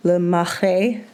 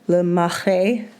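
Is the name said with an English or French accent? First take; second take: French; French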